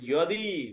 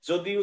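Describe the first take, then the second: First: The word begins with a 'y' sound. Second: The word begins with a 'j' sound. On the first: The speaker calls it right. "তাহলে ইয়দি" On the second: The speaker calls it wrong. "যদি উচ্চারণ হবে না"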